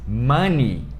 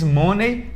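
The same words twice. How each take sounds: First: The word ends with a 'nee' sound. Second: The word ends with a 'nay' sound. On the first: The speaker calls it right. "se diz money. ... Esse O tem som de a ... é ni" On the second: The speaker calls it wrong. "Mas não se diz money"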